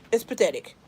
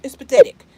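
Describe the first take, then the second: First: Said in the usual way. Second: Pathetic blurted out loud; loud outburst. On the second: Real, not acted. Fed-up mom blurts to her viewers, loud outburst. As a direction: burst out with it loud. Venting, repeats then softer.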